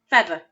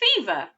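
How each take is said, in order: First: The first vowel is a short eh sound. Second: The first vowel is a long ee sound. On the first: The speaker calls it wrong. "I'm going to try it with the eh sound" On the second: The speaker calls it right. "I'm going to try it with the e sound"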